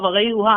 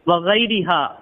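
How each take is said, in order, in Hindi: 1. 'r' के बाद का स्वर 'u' है। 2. 'r' के बाद का स्वर 'i' है।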